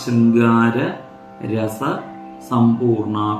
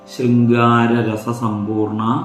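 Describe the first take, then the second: First: The parts are said separately with breaks. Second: The parts are joined into one flowing word.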